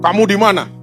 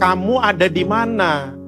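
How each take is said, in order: First: It sounds heavy and menacing, like a dinosaur. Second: It sounds kind and gentle in tone.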